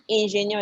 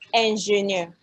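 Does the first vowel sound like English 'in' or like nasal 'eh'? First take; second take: English in; nasal eh. First: The first vowel sounds like English 'in'. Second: The first vowel sounds like a nasal 'eh'. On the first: The speaker calls it wrong. "engineer is not engineer" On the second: The speaker calls it right. "it's engineer"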